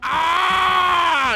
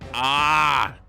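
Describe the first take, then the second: First: The ah is the biggest and loudest. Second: The ah is bigger and louder.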